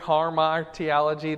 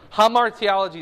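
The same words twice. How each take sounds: First: The first syllable has an added R sound. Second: The first syllable has no R sound. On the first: The speaker calls it wrong. "I always want to put an R here" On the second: The speaker calls it right. "but it's ham"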